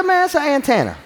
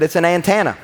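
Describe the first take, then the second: First: High laughing "antenna" said his own Kentucky way; mock protest, higher, through laughter; insisting antenna. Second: "antenna" said with his own Kentucky vowel; "antenna" the way he always said it; antenna as he says it. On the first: Pastor arguing back with his wife, mock protest through laughter. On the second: Retold or imitated. Pastor quoting himself naming the car part, own Kentucky vowel. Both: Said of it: "I said".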